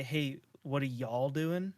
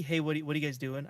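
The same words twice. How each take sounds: First: "y'all" said slow and drawn out, rising at the end; slow self-conscious "y'all"; saying y'all. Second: Said in the usual way. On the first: Shown as a demonstration. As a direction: try on "y'all" slowly. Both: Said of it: "I never say".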